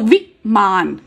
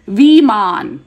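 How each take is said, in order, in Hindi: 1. पहला स्वर छोटी इ है। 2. पहला स्वर बड़ी ई है। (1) "एक बार छोटी ई के साथ बोलो तो विमान" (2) "अब बड़ी ई के साथ बोलो विमान"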